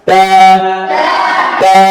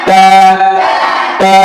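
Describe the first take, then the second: Both takes have the same delivery.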